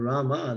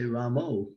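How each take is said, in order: First: The word ends with an 'ah' vowel. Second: The word ends with an 'oh' vowel. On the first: The speaker calls it right. "Instead of saying Rama" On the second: The speaker calls it wrong. "they say Ramo"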